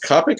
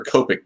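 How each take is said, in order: First: "Copic" with an AH first vowel, like "cop"; short-o Copic. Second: "Copic" with a long OH first vowel, like "cope". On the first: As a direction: say "Copic" as KAH-pik. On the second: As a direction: say "Copic" as KOH-pik. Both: Shown as a demonstration. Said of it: "is it pronounced Copic or Copic".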